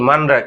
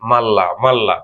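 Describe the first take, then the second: First: The middle is said as n followed by r. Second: The middle is said as a long double l. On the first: The speaker calls it wrong. "Korean natural উচ্চারণে কি মানরা" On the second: The speaker calls it right. "কিন্তু সঠিক কি হবে মাল্লা"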